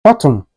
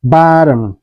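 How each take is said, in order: First: BOTTOM with a clear hard T; T fully pronounced. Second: BOTTOM with a quick D-like tap, "boddom"; flapped T. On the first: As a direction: say "bottom" with a crisp T, no flap. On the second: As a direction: say "bottom" American style, like "boddom". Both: Shown as a demonstration. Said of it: "is pronounced like".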